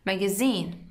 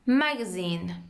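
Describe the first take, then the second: First: The stress falls as in British English. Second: The stress falls as in American English. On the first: "British magazine" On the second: "In American we pronounce it magazine"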